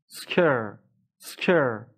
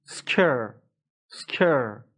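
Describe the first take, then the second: No difference in how they are said.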